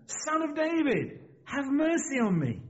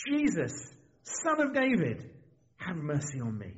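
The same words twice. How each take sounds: First: Much higher, drawn-out plea; crying out more insistently. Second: Understated read-aloud cry for mercy; mild crying out. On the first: Blind beggar persisting despite warnings, high insistent cry. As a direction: call out slowly and urgently, voice raised in pitch. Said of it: "but he cried out the more". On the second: Blind beggar calling to Jesus, a restrained cry. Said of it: "he began to cry out". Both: A narrator's reading.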